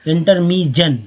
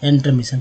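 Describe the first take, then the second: First: The final syllable is said with a j sound. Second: The final syllable is said with an sh sound. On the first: The speaker calls it wrong. "अगर जन पढ़ते इंटरमीजन, गलत हो गया" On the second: The speaker calls it right. "अगर सन पढ़ते इंटरमिशन, तो लग रहा है कि ये सही है"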